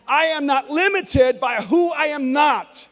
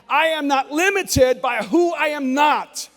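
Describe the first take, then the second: First: It is said urgently, as if badly needed. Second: The same.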